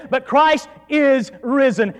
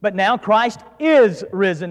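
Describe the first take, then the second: First: Slow, weighted "But Christ is risen" with stress on Christ; emphatic. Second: Said in the usual way. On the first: Retold or imitated. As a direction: lean hard on Christ, slowly. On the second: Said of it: "emphatically, he just says".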